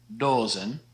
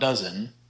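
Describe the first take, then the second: First: It is said with Dutch vowels, like doze-n. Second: It is said like the English word dozen. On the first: The speaker calls it right. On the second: The speaker calls it wrong.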